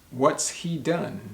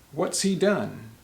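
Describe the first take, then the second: First: What and has are contracted into one syllable. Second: What and has are contracted into one syllable.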